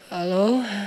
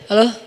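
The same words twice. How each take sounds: First: The voice is soft and drowsy, deliberately softened. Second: The voice is plain and ordinary, not softened. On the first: The speaker is making the voice alluring. The speaker calls it wrong. "kayak orang baru bangun tidur gitu, gak boleh" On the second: The speaker is just talking normally. The speaker calls it right. "Biasa aja"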